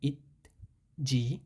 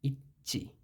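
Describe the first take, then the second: First: The second consonant is a soft 'j' sound. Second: The second consonant is a tense 'ch' sound. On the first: The speaker calls it wrong. "হওয়ার কথা ছিল" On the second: The speaker calls it right. "সেটা না হয়েছে"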